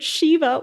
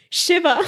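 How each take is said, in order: First: High-pitched American "Shiva" with long ee: SHEE-va; mocked American accent. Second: High-pitched "Shiva" with short i, SHIV-a; corrected pronunciation. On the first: Speaker mocking own slip, high American SHEE-va for Shiva. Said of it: "said that with an American accent". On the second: Shown as a demonstration. Speaker fixing own slip, Shiva high with short i, SHIV-a. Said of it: "I can't believe I said that with an American accent".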